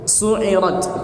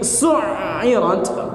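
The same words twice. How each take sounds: First: The middle consonant is short and single. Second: The middle consonant is long and doubled. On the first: The fire is lit. "tanpa tasydid" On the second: The fire is stoked intensely. "dibaca dengan tasydid"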